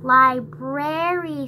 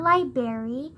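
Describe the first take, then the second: First: The R after the B is clearly pronounced. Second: The R after the B is dropped. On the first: The speaker calls it right. "It literally has an R right before the A" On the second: The speaker calls it wrong. "not library"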